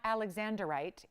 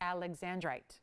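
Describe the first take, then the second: First: An extra 'er' syllable is added mid-word. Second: No extra syllable is added mid-word. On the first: The speaker calls it wrong. "why are you adding letters that aren't there?" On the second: The speaker calls it right. "it's alexandrite"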